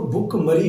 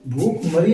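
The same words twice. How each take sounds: First: भूखमरी with a short "bhu"; correct short vowel. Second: भूखमरी with a long "bhoo", louder; wrong long vowel. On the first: Teacher correcting students' spelling, भूखमरी with short "u". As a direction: say भूखमरी as "bhukh-mari", first vowel short. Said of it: "वो भूखमरी होता है". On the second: Teacher rejecting the misspelling, भूखमरी with long "oo". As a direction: say भूखमरी as "bhooookh-mari". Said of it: "भूखमरी नहीं होता". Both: Shown as a demonstration.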